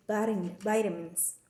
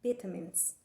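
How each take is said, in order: First: Vitamins the American way, first syllable like "vite"; American pronunciation. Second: Vitamins the British way, first syllable like "vit"; British pronunciation. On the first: Student showing classmates American English, vitamins with a long i. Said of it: "in American dialect". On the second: Student showing classmates British English, vitamins with a short i. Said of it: "But in British accent, we say". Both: Shown as a demonstration.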